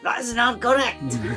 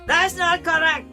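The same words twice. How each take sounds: First: It is said less loudly. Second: It is said much louder.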